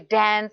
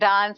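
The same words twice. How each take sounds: First: It is said with an American accent. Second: It is said with an Indian accent.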